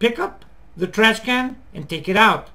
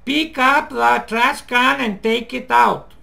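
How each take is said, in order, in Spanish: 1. Las palabras se juntan en algunos grupos. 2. Cada palabra se dice por separado, como un robot. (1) "Fíjate bien. ... Tienes que aprender a hacer eso" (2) "No hacer esto. ... Te suenas como un robot"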